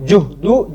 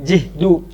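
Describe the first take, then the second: First: The first vowel is a rounded u sound. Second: The first vowel is a front i sound. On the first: "dengan dhamma" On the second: "dengan kasrah"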